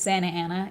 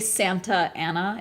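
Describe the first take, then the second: First: The T in Santa is dropped. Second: The T in Santa is clearly pronounced. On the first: The speaker calls it right. "It's Santa Ana, even though it's there's a T in there" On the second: The speaker calls it wrong. "we don't say Santa Ana"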